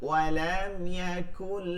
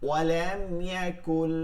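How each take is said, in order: The two takes are said the same way.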